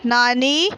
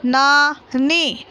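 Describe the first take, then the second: First: Said in the usual way. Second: नानी drawn out very slowly, syllable by syllable. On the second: Shown as a demonstration. Teacher reading aloud to pupils, नानी stretched very slowly. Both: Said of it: "बोलकर पढ़िए".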